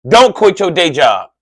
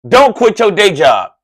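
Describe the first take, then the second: The two takes are said the same way.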